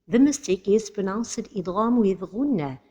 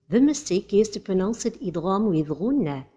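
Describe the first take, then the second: No difference in how they are said.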